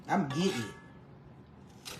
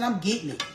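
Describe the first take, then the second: First: I'm getting it stretched out slow, low and soft; slow drawl. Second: Said in the usual way. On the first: Shown as a demonstration. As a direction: drag out every word of I'm getting it. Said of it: "repeats the phrase slowly and low". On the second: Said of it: "repeats the phrase, then drawls it".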